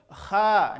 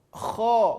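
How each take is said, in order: First: The kh is followed by a thin, open a vowel. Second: The kh is followed by a thick, rounded o vowel. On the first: The speaker calls it wrong. "menjadi kha. Belum" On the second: The speaker calls it right. "Bunyi vokal huruf tebal adalah huruf O"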